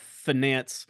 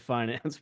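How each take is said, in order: First: The word is said the Texan way. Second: The word is said the standard, non-Texan way. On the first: "I've heard Texans call it finance" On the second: "as opposed to finance"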